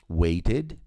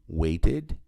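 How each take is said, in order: The two takes are said the same way.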